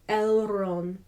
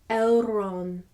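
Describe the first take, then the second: The two takes are said the same way.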